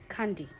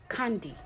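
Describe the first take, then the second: No difference in how they are said.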